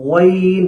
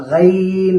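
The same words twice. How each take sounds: First: Slow গইন with rounded lips; wrong Ghain. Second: গাইন with an open a, slightly louder; wrong Ghain. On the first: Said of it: "এমন যেন না হয়". (ঠোঁট গোল করে ভুল গইন) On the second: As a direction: say গাইন the wrong way, with the vowel opened. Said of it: "এরকম না হয়". (ভুল গাইন উচ্চারণ) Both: Shown as a demonstration.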